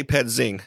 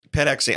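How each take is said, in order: First: Pedzing, said as PED-zing; run-together reading. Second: Pedexing, said as ped-EX-ing; literal reading. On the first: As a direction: read the X as Z in "pedzing". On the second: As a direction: spell out the X in "Pedexing". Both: Shown as a demonstration. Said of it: "I say pedzing".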